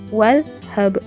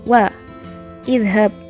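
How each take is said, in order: First: 'Wa' runs straight into 'dhab' with no 'i'. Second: An 'i' vowel is heard between 'wa' and 'dhab'. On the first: "kasrohnya ini tidak dibaca, tapi langsung ke wadhab" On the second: "misalnya ada di sini wa idhab"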